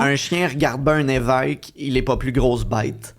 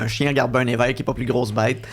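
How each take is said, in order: First: The phrase is spoken slowly, word by word. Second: The phrase is spoken at a normal conversational speed.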